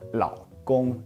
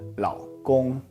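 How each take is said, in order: The two takes are said the same way.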